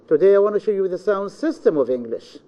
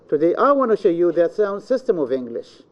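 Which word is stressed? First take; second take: sound system; I. First: The stress falls on the words sound system. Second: The stress falls on the word I. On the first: It is this subject, not any other subject. "we are going to explain the sound system, not any subject else" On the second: It is me, not anyone else. "This means I, not anyone else"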